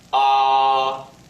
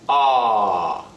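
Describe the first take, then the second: First: The pitch stays high and level. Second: The pitch starts high and drops sharply. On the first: "remain still" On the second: "start your pitch a little bit higher and then let it drop"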